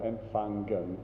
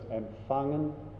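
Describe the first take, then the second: First: A hard g sound is heard after the ng. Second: Only a soft nasal ng is heard, no g. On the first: The speaker calls it wrong. "It's not verlangen or empfangen" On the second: The speaker calls it right. "It's just empfangen"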